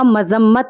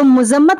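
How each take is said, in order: First: The first vowel is a. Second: The first vowel is u. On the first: The speaker calls it right. "मीम के ऊपर पेश ना होकर ज़बर होगा" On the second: The speaker calls it wrong. "तो मुज़म्मत सही लफ्ज़ नहीं है"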